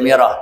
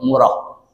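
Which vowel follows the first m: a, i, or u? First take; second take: i; u. First: The first vowel after m is i. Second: The first vowel after m is u. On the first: The speaker calls it wrong. "bukan dibaca miroh" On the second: The speaker calls it right. "tapi dibaca mur, murah"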